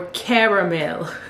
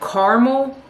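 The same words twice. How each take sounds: First: It is said with three syllables, car-a-mel. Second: It is said with two syllables, car-mel. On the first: "or caramel?" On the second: "do you say car, like a vehicle, mole"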